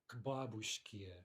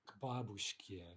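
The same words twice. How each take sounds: No difference in how they are said.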